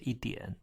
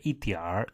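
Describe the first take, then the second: First: The word ends without an R sound. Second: The word ends with an R sound. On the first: This is how it is said in the speaker's hometown. "we just say 一点" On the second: This is how some other regions say it. "They just have R accent or not"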